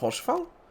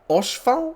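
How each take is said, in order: First: The name begins with a sounded H. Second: The name begins with a silent H. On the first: The speaker calls it wrong. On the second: The speaker calls it right.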